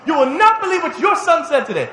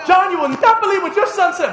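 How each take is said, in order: First: High and loud, leaning on not; indignant tattling mother, laughing. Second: Much higher and louder, stress on not; indignant tattling mother. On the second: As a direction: tattle to the husband, scandalized. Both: Retold or imitated. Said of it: "Dad gets home".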